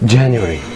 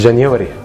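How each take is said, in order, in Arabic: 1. تُنطق بالأصوات الإنجليزية. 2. تُنطق بالأصوات العربية المصرية.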